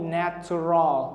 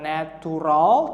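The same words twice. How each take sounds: First: The t is said like ch, as in nature. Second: The t is said as a plain t sound. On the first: The speaker calls it right. "tapi natural, nature. T" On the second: The speaker calls it wrong. "bukan natural"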